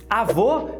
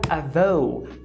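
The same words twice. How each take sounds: First: The final o is pure, without a glide. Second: The final o glides into an ou sound. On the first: This is the native Portuguese pronunciation. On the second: This is how a native English speaker says it.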